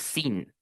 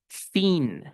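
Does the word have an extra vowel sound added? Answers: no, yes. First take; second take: no; yes. First: The word has no extra vowel sound added. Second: An extra vowel sound is added to the word. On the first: The speaker calls it right. "no es sin" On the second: The speaker calls it wrong. "dije sin"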